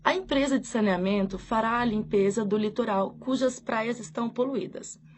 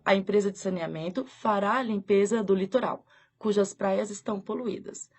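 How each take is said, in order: First: There is no pause before 'cujas'. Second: There is a pause before 'cujas'.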